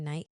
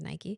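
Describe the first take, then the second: First: The brand name is said the Australian way. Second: The brand name is said the American way. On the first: "I think they say Nike here in Australia" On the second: "in America, it was Nike"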